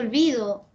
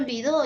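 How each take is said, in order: First: The stress is on the middle syllable. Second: The stress is on the last syllable. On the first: "yo no estoy diciendo" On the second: "yo estoy diciendo"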